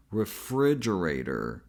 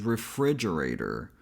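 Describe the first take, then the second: First: "refrigerator." once more, lower, stress on fri; full word, falling. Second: "refrigerator" syllable by syllable, stress on fri; full word. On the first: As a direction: close it with a falling repeat. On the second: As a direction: spell it out in sound. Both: Shown as a demonstration. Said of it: "the whole word is".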